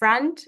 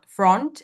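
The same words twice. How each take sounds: First: The vowel is an open, unrounded 'uh' sound. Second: The vowel is said with rounded lips. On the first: The speaker calls it right. "in fact, it's uh, front with a" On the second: The speaker calls it wrong. "the locked vowel sound ... this rounded sound"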